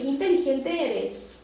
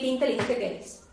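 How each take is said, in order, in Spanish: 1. Suena sincera y admirada. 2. Suena sarcástica y burlona. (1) "para ensalzarte" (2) "para insultarte"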